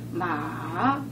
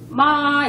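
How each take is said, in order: First: The pitch dips low then rises. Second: The pitch stays high and level. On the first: It means horse. "마 그러면은 말 맞자 달려 달리는 말이고" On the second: It means mother. "일성이 이제 예를 들어서 마 이러면은 이제 엄마가 되는 거고"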